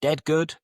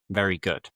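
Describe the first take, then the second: First: A hint of Scouse, pitched higher on "Dead good"; lightly Scouse colloquial example; Scouse phrase. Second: Said in the usual way. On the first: Shown as a demonstration. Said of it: "If you say that something is dead good". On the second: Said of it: "you're saying it is very".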